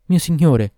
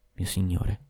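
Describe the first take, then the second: First: High, loud cry of Mio signore; a lover's loud, high cry of longing; exclaiming. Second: Soft murmur of Mio signore into his ear; a lover murmuring into his ear. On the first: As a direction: call out to her lord in one burst. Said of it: "esclamò infine". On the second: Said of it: "mormorò all'orecchio". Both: A narrator's reading.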